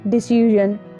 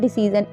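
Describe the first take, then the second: First: The middle consonant is a soft zh sound. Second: The middle consonant is a plain z sound. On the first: The speaker calls it right. "it is decision" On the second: The speaker calls it wrong. "it is not decision"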